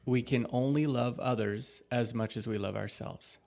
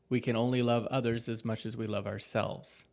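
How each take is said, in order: First: It is read more slowly. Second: It is read at a normal pace.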